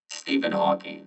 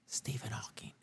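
First: The name is said in a normal voice. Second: The name is whispered.

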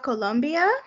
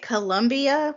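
First: The name is said carefully, the way natives say it. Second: The name is said casually, the usual English way. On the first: This is the pronunciation a native speaker approves of. The speaker calls it right. "I say it that way because I have a friend from Colombia" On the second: This is the habitual pronunciation a native speaker dislikes. The speaker calls it wrong. "which is how it normally comes out"

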